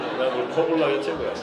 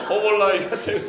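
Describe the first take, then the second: First: Said in the usual way. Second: Louder, chuckling through 허벌나기가; laughing while praising 허벌나기가; laughing emphasis. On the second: Real, not acted. Pastor ranking dialect words, laughing loudly. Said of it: "억수로 좋다는 허벌나기보다 약해".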